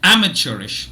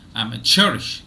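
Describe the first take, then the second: First: The stress is on the first syllable. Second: The stress is on the third syllable. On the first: "British English" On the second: "American English"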